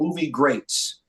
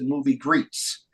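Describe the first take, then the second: First: The second word rhymes with 'late'. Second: The second word rhymes with 'feet'. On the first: "it was called Movie Greats" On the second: "when I was younger, I would pronounce it Movie Greets"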